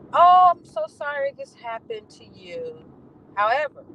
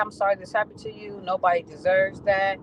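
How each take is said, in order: First: Higher, louder, slow fake-sorry "Oh, I'm so sorry"; syrupy insincere sorry, drawn out and loud; mock sweet apology. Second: Said in the usual way. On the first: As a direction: sneer the apology in a sugary mock voice. Quoting the supervisor's email.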